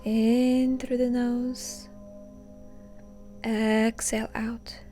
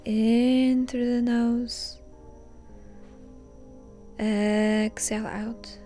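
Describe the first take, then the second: No difference in how they are said.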